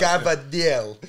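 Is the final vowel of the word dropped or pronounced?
dropped. The word ends without its final vowel. "Napolitan dialect"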